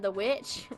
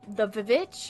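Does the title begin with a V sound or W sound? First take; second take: W sound; V sound. First: The title begins with a W sound, one syllable. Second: The title begins with a V sound, two syllables. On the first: "two V's to make the W" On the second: "I say the Vivitch instead of the Witch"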